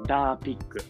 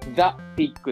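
First: The first word starts with a 'd' sound. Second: The first word starts with a 'th' sound. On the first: This is how a small child said the name. "ダの発音がちょっとダ、ダ、ダになってたから、ダピッグって呼んだの" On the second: This is the standard English name. "The Pig っていうじゃん、英語で言うと"

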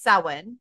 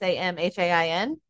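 First: It is pronounced the traditional Irish way. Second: It is pronounced letter by letter, anglicized. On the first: "in Irish, it's Samhain" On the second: "but it's spelled like Samhain, like Samhain"

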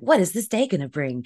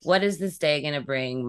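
First: It sounds eager and excited. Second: It sounds tired and dreading.

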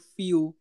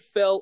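First: The vowel is long, like in 'feel'. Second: The vowel is short, like in 'fell'. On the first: "or Feel?" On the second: "Do you pronounce it Fel"

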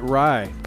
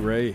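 First: The name rhymes with 'eye'. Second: The name rhymes with 'day'.

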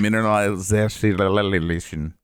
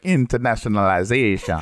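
First: It is said in the speaker's own voice. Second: It is said imitating Pepe's voice.

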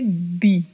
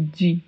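First: The syllable starts with a plain d sound. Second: The syllable starts with a dj sound. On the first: The speaker calls it right. "a pronúncia é di" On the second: The speaker calls it wrong. "Em espanhol, não temos a pronúncia de"

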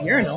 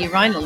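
First: It is said with an American accent. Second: It is said with a British accent.

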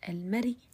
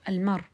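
First: It ends with a faint, low trace of a vowel. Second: It ends on a bare consonant with no vowel. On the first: "رومها صوت منخفض" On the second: "حأقف عليه بالسكون المحض"

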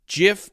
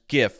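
First: The word begins with a soft J sound. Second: The word begins with a hard G sound. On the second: "it's a hard G sound"

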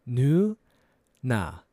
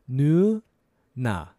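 The two takes are said the same way.

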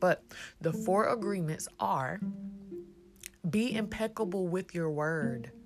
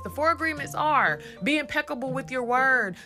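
First: It is said slowly and deliberately. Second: It is said at a normal pace.

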